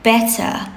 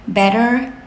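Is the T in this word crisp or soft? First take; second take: crisp; soft. First: The T is crisply pronounced, British style. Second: The T is soft, American style. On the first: The speaker calls it right. "enunciate your T's" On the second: The speaker calls it wrong. "like American"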